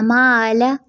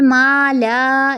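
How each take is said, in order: First: मा ला with a short unstretched ला; correct way. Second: मा ला with the second vowel stretched, the wrong way. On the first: Teacher models the correct मा ला for students. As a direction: keep the ला crisp. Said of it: "ठीक है". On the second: Teacher imitates children stretching मा ला. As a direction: drag the ला like children do. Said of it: "तो ऐसे नहीं पढ़ना". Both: Shown as a demonstration.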